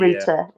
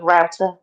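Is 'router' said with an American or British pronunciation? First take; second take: British; American. First: It is said with a British pronunciation. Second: It is said with an American pronunciation. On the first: This is the word used on first arriving. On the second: This is the local form adopted later.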